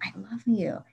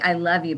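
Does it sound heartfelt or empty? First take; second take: heartfelt; empty. First: It is said with warm, real feeling. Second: It is said without real feeling.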